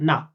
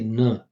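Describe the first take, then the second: First: The vowel is a full, open 'ah' sound. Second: The vowel is a short, relaxed schwa sound. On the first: The speaker calls it wrong. "it's not nah" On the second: The speaker calls it right. "I'm going to say"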